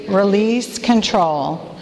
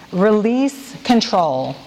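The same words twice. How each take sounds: First: Slow, deliberate call-and-response line; slow group recitation. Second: Slow, deliberate, each word laid out; slow recited phrase. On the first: Leader saying it together with the women, slow and deliberate. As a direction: say it slowly with the room. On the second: Leader reading an acrostic to the women, slow and deliberate. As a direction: recite it slowly for the group to echo. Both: Shown as a demonstration. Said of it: "Say that with me".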